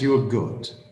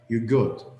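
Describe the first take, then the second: First: The R in you're is pronounced. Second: The R in you're is dropped. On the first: "you pronounce it" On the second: "they don't even pronounce the R"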